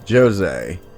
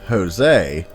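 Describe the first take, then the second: First: The name is said with a Portuguese pronunciation. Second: The name is said with an English pronunciation. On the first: The speaker calls it right. "in Portuguese it is actually said as" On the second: The speaker calls it wrong. "you may naturally think is pronounced"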